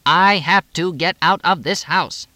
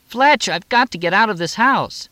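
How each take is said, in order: First: Slow, loud, high stress on each word of "I have to get out of this house"; emphasizing every word. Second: Very high, loud, urgent plea; desperate. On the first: Moxie insists to Fletch, stressing each word of "I have to get out of this house". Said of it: "She emphasized every word". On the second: Moxie, turning in circles, begs Fletch, desperate and high. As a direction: plead urgently, pitched way up. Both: A narrator's reading.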